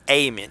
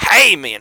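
First: The word starts with a plain vowel sound. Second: The word starts with an H sound. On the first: The speaker calls it wrong. "you don't say amen" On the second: The speaker calls it right. "With an H"

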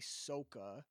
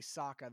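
First: The name is said in an altered way. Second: The name is said in the usual way. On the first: This is how the film says it. The speaker calls it wrong. "they say Sokka" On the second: This is how the show says it. The speaker calls it right. "they don't say Sokka"

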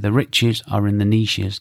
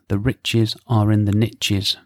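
First: 'Niches' is said 'neeshes', not rhyming with 'riches'. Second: 'Niches' rhymes with 'riches', said 'nitches'.

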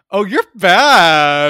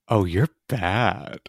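First: It is said in her own natural voice. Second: It is said in a put-on sexy guy voice.

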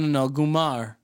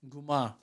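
First: The word ends with an audible r sound. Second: The word ends in a vowel, without r.

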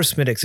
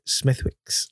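First: The middle has no 'th' or 'w' sound. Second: The middle has clear 'th' and 'w' sounds. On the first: The speaker calls it right. "if you're looking for Smittick's" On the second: The speaker calls it wrong. "you don't pronounce it Smithwick's"

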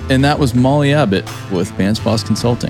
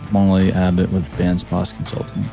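First: It is said with high energy. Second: It is said with low energy.

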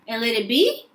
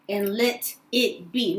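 First: It is said as a tentative plea. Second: It is said as a firm declaration.

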